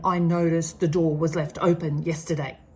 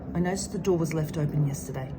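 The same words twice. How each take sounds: First: The voice sounds angry and accusing. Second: The voice sounds calm and neutral. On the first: The speaker blames the listener. The speaker calls it wrong. "can you hear the shift in my tone? I'm angry" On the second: The speaker only states the behaviour. The speaker calls it right. "But instead it's"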